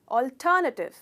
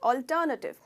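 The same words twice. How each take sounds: No difference in how they are said.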